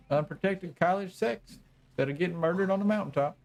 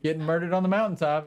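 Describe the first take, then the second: First: Put-on old hillbilly accent. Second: Said in the usual way. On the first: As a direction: say "getting murdered on the mountaintop" as the gloating old hillbilly. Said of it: "listened to the old hillbilly". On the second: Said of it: "the old hillbilly".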